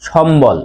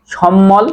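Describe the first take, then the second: First: সম্বল said shombol, b sounded; correct b sound. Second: সম্মল said shommol, double m, no b; wrong form shown. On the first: Teacher shows what we really say, b pronounced. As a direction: put a clear b after m in সম্বল. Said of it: "উচ্চারণ করি কি". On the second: Teacher asks if we say so, mispronounced. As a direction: drop the b, hold the m in সম্মল. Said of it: "আমরা কি বলি যে". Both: Shown as a demonstration.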